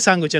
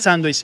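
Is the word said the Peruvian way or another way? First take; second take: Peruvian; other. First: The word is said the Peruvian way. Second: The word is said a non-Peruvian way. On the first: This is how people here say it. The speaker calls it right. "acá en Perú se dice sándwich" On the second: This is not how people here say it. The speaker calls it wrong. "no se dice sándwich"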